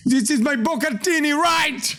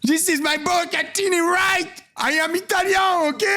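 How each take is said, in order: First: A light mock Italian-American accent; mild fake Italian accent; imitating Italian chef. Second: High, shouted mock Italian-American accent; mock Italian chef. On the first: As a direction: parrot the chef's line, a little higher. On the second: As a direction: ham up the chef's boast. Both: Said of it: "J'ai perdu mon accent italien".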